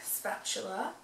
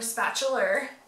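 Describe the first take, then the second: First: It is said in a plain, neutral accent. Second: It is said in a Southern US accent.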